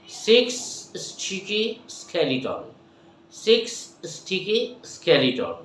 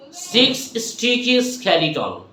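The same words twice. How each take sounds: First: Slow, careful twister; slow demo. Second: Said in the usual way. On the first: Shown as a demonstration. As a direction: spell out each sound slowly.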